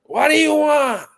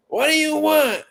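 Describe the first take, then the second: First: High, loud, slow put-on voice; high impatient order-taker voice; impression of takeout lady. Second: High impatient order-taker voice; impression of takeout lady. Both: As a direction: bark it like the woman on the phone. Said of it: "She be like".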